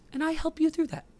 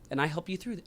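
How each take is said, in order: First: It is said in a put-on voice. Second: It is said in his normal voice.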